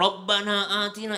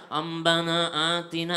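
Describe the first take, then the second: First: Said in the usual way. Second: "Rabbana" with a slurred lisp. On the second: Retold or imitated. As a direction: repeat "Rabbana atina" clumsily, lisping. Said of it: "Kebetulan saya cadel".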